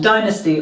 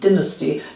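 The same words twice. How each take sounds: First: It is said with an American pronunciation. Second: It is said with an English pronunciation.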